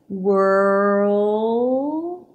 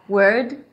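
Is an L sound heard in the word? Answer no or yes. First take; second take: yes; no. First: A clear dark L sound is heard. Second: The L sound is dropped from the word. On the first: The speaker calls it right. "visualize it like you have three L's in this word, so you don't miss it" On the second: The speaker calls it wrong. "I hear people saying it as word, right? And the L just disappears"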